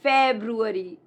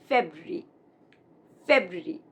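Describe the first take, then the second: First: "February" as FEB-roo-AIR-ee; four full syllables in "February", feb-roo-e-ree; mispronounced February. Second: "February" as FEB-ruh-ree, lower; correct February. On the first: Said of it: "many people make this mistake". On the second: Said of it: "It's not February". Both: Shown as a demonstration.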